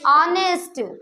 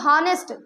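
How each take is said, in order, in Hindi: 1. शब्द सीधे स्वर की आवाज़ से शुरू होता है। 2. शब्द की शुरुआत 'h' की आवाज़ से होती है। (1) "एच साइलेंट है भैया" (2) "इसकी स्टार्टिंग तो एच से हुई, तो हॉनेस्ट बोलना था"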